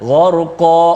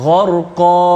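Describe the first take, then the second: The two takes are said the same way.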